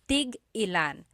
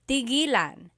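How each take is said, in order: First: A glottal stop breaks the word after 'tig'. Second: The word flows smoothly with no glottal stop. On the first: It asks how many of each. "when there's a hyphen in it, you have to have that glottal stop" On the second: It means to stop. "When there's no hyphen, ... It's just one word"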